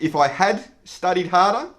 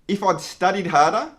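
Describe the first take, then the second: First: The word 'had' is said in full. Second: The word 'had' is contracted to 'I'd'. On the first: The speaker calls it wrong. "so we don't sound like a robot" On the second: The speaker calls it right. "we must also remember our contractions"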